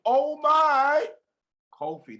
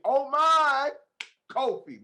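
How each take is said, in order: First: Excited exclamation. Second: Oh my up high and loud, Kofi falling back to normal; thrilled repeat of the name Kofi; excited exclamation. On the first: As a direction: gush oh my then breathe out the name Kofi. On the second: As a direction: exclaim it again with delight. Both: Real, not acted. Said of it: "That's the only way to say your name".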